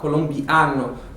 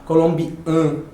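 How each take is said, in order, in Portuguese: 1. A vogal a é aberta e clara. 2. A vogal a é fechada e nasal. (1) "Lembrem também do som do A aberta" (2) "Você não vai falar colombiano, não"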